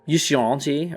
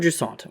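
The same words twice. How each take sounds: First: The name is said with a French pronunciation. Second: The name is said with an English pronunciation.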